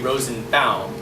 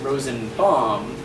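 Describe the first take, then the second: First: The last syllable sounds like author Baum's name. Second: The last syllable does not sound like author Baum's. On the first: "like L. Frank Baum" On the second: "Until a few years ago, I pronounced it"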